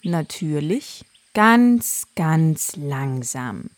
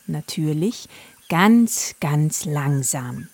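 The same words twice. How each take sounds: First: Ganz, ganz langsam very slow; drawn out slowly. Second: Ganz, ganz langsam said slow; drawn out slowly. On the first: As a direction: drag it out like a sloth. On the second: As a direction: stretch it like a sloth. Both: A narrator's reading. Narrator stretches slow words. (ganz langsam gedehnt)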